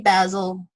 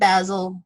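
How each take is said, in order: First: It is said the English way. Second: It is said the English way.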